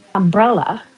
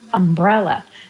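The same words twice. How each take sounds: First: The stress is on the second syllable. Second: The same.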